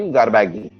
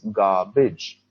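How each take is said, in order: First: The ending sounds like 'baggy'. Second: The ending sounds like 'bij'. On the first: The speaker calls it wrong. "B A G is baggy, so then this should be garbaggy. No" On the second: The speaker calls it right. "It's garbage"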